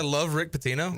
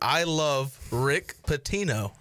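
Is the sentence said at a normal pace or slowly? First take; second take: normal; slowly. First: The sentence is said at a normal pace. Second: The sentence is said slowly and deliberately.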